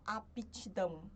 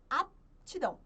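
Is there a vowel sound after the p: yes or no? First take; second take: yes; no. First: The p is released with a vowel after it. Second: The p is unreleased with no vowel after it. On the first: The speaker calls it wrong. "a gente não fala" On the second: The speaker calls it right. "esse mesmo P mudo"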